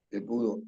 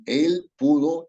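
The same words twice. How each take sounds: First: Said in the usual way. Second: Él pulled out slow, higher and louder with a rise; stress on él. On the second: Shown as a demonstration. Teacher marks the él needing a tilde, stressed. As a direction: lean hard on él and stretch it. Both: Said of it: "también el él no está modificando ningún nombre".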